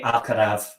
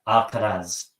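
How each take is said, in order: First: The name is said with a Spain Spanish pronunciation. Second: The name is said with a Latin American pronunciation. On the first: "I'm used to the Spanish pronunciation. So I actually say Alcaraz" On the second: "in Paraguay and basically outside of Spain it's Alcaraz"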